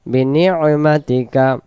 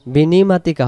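First: বিনি'মাতিকা with a throat catch for ain after বিনি; correct reading. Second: বিনিমাতিকা run smooth, no ain break after বিনি; flat বিনিমাতিকা without the throat catch; wrong reading. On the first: Teacher giving students the right form, বিনি'মাতিকা with the ain catch. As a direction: break বিনি' then মাতিকা. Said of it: "এখানে আইন অক্ষর আছে". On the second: Teacher showing students the mistake, বিনিমাতিকা with no ain. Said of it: "বিনিমাতিকা হবে না". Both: Shown as a demonstration.

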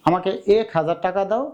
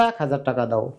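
First: "এক" with pure e, "ek"; spelling pronunciation. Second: "এক" as "aek", vowel as in "cat"; open ae. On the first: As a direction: say "এক" as written, like "ache". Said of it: "এক না বলে বলি". (বিশুদ্ধ এ দিয়ে "এক") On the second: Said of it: "একে আমরা বলি". (অ্যা দিয়ে "এক") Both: Shown as a demonstration.

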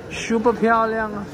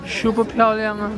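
Both takes have the same delivery.

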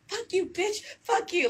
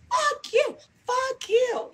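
First: Higher, snapping mock insult; aggressive comeback. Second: Much higher, squealed mock insult; aggressive comeback. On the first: Showing her aggressive side to haters, a mock snap. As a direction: throw it back at them with attitude. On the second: Acting out her aggressive side, a shrill mock outburst. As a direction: shriek it out in a put-on voice. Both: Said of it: "aggressive side where I'm like".

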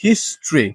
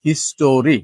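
First: History in two syllables, HIS-tree; correct pronunciation. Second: History drawn into three syllables, his-TO-ree; wrong pronunciation. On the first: Teacher models the word, correct pronunciation. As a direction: drop the middle vowel of history. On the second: Teacher warns against this form, wrong pronunciation. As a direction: sound a full "o" in history. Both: Shown as a demonstration. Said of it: "not history".

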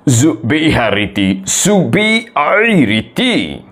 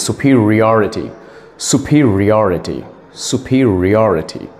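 First: "Zubiharity" for superiority, zoo-bee-HA-ri-tee; wrong pronunciation. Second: "superiority" as soo-peer-ee-OR-i-tee; correct pronunciation. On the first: Acted. Student attempting the test word, "Zubiharity" mispronounced. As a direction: garble it as "Zubiharity", stretched out the second time. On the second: Shown as a demonstration. Teacher correcting the student, "superiority" pronounced correctly. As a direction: model "superiority" evenly, falling at the end. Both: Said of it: "The correct pronunciation is".

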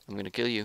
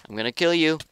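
First: Said in the usual way. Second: Higher, louder playful threat; hyped threat. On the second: Acted. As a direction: psych yourself up as you say it. Building threat at opponent.

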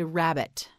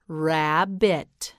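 First: Said in the usual way. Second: "Rabbit" split slowly as rab-bit; syllable-by-syllable. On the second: Shown as a demonstration. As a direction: sound out "Rabbit" in two separate syllables. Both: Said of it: "You say it".

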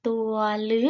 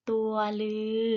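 First: "ลึ" with a short, cut-off vowel; letter-name reading demo. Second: "ลือ" with a long, held vowel; letter-name reading demo. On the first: Teacher models a letter's name for pupils, short-vowel "ลึ". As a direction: model "ตัวลึ" evenly, ending short. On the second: Teacher models a letter's name for pupils, long-vowel "ลือ". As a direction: model "ตัวลือ" evenly, drawing out the ending. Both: Shown as a demonstration. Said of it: "อ่านว่า".

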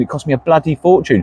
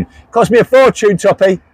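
First: Said in the usual way. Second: Higher-pitched call to someone further off; raised voice, aimed across the room. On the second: Real, not acted. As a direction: call it across so Toppy hears. Repeats it, calling out to Toppy.

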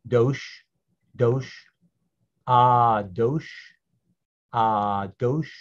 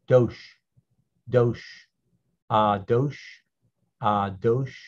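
The two takes are said the same way.

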